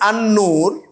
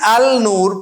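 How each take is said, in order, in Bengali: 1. l ধ্বনিটি দ্বিত্ব n ধ্বনিতে মিশে যায়। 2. আর্টিকেলের l স্পষ্ট উচ্চারিত হয়। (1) "পড়তেছি আন নূর" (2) "লিখতেছি আল নূর"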